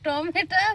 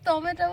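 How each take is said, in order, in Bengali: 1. শব্দটি 'a' স্বরধ্বনি দিয়ে শেষ হয়। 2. শব্দটি 'o' স্বরধ্বনি দিয়ে শেষ হয়। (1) "টমেটা টমেটা বলছি না" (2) "টমেটো বলছি"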